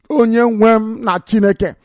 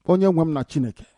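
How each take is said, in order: First: Higher, fuller cry to God; raised invocation. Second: Soft appeal to God; subdued invocation. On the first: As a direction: lift the voice to call on your Lord. Repeats the call, raised. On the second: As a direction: call on your Lord under your breath. First, subdued call on God. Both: Real, not acted.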